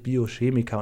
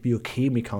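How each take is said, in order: First: The word has the standard German pronunciation. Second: The word has a regional, non-standard pronunciation. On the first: The speaker calls it right. "das heißt natürlich Biochemiker" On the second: The speaker calls it wrong. "und nicht Biochemiker"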